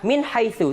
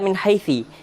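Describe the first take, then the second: First: The last word ends with an 'u' vowel. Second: The last word ends with an 'i' vowel. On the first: The speaker calls it right. "tetap dibaca min haitsu" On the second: The speaker calls it wrong. "tidak boleh dibaca min haitsi"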